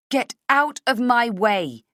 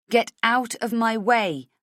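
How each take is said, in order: First: Slow, loud forced bravado; false bravado. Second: Slow, raised demand; unsure demand. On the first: Heroine facing villain, false bravado. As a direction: fake the courage, push it out. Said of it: "with false bravado". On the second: Heroine ordering villain aside, slow and unsure. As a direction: force it out, faltering. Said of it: "don't feel so sure". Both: Acted.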